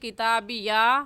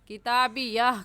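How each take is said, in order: First: The word ends with an open long vowel. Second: The word ends with a soft h sound. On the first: The speaker calls it wrong. "किताबिया नहीं कहेंगे" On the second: The speaker calls it right. "किताबिया कहेंगे, ... अलिफ नहीं पढ़ेंगे बल्कि हा पढ़ेंगे"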